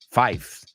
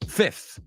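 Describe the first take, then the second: First: The vowel is long, as in 'five'. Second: The vowel is short, as in 'fit'. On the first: The speaker calls it wrong. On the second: The speaker calls it right. "Esa cambia sonido vocal"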